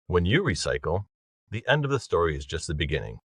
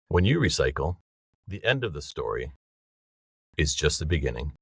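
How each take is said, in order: First: There is no pause after 'story'. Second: There is a pause after 'story'.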